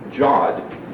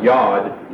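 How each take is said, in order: First: It starts with a j sound and ends in d. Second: It starts with a y sound and ends in d. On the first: "called Jod, J-O-D" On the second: "or Yod, Y-O-D"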